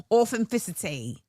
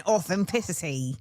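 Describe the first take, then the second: First: Put-on British accent. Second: Said in the usual way. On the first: Repeats word in British accent.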